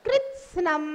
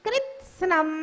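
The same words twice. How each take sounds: The two takes are said the same way.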